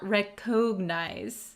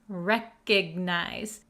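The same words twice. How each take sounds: First: The middle vowel is a full O sound. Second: The middle vowel is weak and reduced. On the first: The speaker calls it wrong. "not recognize" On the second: The speaker calls it right. "we're going to pronounce it recognize"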